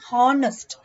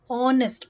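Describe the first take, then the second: First: The word begins with a sounded h. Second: The word begins with a vowel sound. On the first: The speaker calls it wrong. "We don't say honest. Ha" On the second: The speaker calls it right. "H is not pronounced"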